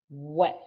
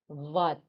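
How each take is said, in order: First: It begins with a W sound. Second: It begins with a V sound. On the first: The speaker calls it right. "they don't have what sound" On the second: The speaker calls it wrong. "they say V"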